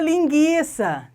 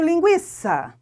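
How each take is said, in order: First: The u after the g is silent. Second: The u after the g is pronounced. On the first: The spelling change is taken to change the pronunciation. The speaker calls it wrong. "então agora eu falo linguiça. Não" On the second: Only the diaeresis was lost; the pronunciation stays. The speaker calls it right. "Você continua falando linguiça. Não muda. A fonética continua"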